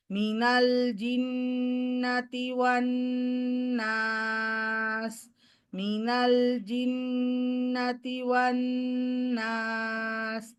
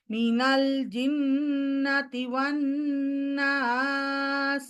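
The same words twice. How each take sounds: First: মিনাল জিন্নাতি one নাস on one level pitch, slow; flat recitation. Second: মিনাল জিন্নাতি one নাস sung with a rising tune; with melody. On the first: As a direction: keep the whole phrase flat and even. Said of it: "অবশ্যই flat". (সমান flat তিলাওয়াত) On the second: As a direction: add a melody over the phrase. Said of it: "এখানে সুর দিই". (সুর দিয়ে পড়া) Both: Shown as a demonstration.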